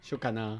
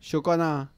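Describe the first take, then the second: First: It is said very fast, sounds merged. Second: It is said faster, words joined.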